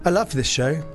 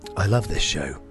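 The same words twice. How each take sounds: First: It is read in an ordinary speaking voice. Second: It is read in a put-on radio voice.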